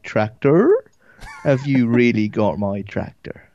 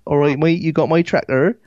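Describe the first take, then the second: First: Broader Devon accent. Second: Higher-pitched Devon farmer accent. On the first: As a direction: drag out a thick southern Devon accent. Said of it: "the further sort of south you get". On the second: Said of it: "That's how they talk". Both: Shown as a demonstration.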